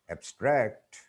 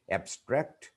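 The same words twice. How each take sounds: First: ABSTRACT as the verb, ab-STRACT; "abstract" with stress at the end; stress on second syllable. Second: ABSTRACT as the noun, AB-stract; "abstract" with stress up front; stress on first syllable. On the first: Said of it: "second syllable". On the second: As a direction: hit the "ab" in "abstract". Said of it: "the stress is on the first syllable". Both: Shown as a demonstration.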